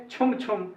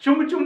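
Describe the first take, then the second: First: छुम छुम with aspirated chh; Hindi pronunciation. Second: चुम चुम with plain ch; चुम चुम without aspiration; English pronunciation. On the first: Teacher shows how our people say it, aspirated छुम छुम. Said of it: "अपने लोग बोलेंगे". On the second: Teacher shows what the Englishman says, plain चुम चुम. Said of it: "चुम चुम बोलेगा वो". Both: Shown as a demonstration.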